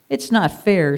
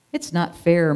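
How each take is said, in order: First: A bit louder, stressed not; jealous sheep complaining out loud; said loudly. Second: Sulky mild moan; jealous sheep moaning to the flock. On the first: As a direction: say it loudly so all hear. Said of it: "said Curly loudly". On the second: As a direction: whine it a little. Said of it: "moaned Curly". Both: Acted.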